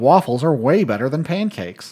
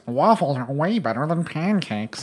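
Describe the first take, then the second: First: It is said in the speaker's normal voice. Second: It is said in a put-on imitation voice.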